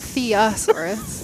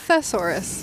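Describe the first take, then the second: First: The word has an extra vowel before the s. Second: The word has no extra vowel before the s. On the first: The speaker calls it wrong. "not theosaurus" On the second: The speaker calls it right. "it's definitely just thesaurus"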